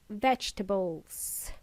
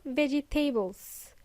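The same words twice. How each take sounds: First: "vegetables" as VEJ-tuh-buls; lower, softer "vegetables" in three syllables; correct vegetables. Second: "vegetables" as veh-jee-TAY-buls; mispronounced vegetables. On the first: Teacher correcting learners, vegetables as vej-tuh-buls. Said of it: "it's vegetables". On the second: Teacher showing learners the mistake, vegetables as veggie-tables. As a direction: end "vegetables" like the word tables. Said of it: "It's not vegetables". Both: Shown as a demonstration.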